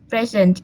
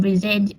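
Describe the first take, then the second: First: PRE-sent, as in a gift, "PREZ-ent"; stress on first syllable. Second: Pre-SENT, as a verb, "pri-ZENT"; stress on second syllable. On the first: Student presenter explaining the noun, present stressed on the first syllable. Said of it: "but as noun". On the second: Student presenter explaining the verb, present stressed on the second syllable. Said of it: "the stress is usually on the second syllables". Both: Shown as a demonstration.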